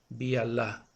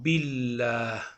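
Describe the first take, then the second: First: The alef is sounded as a separate syllable. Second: The alef is dropped and the words run together. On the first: It is read letter by letter, as written. "Aquí en las letras dice Bi'Allah" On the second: It is recited the way the Prophet recited it. "cuando ponemos este signo decimos Billah. La letra Aleph no se pronuncia"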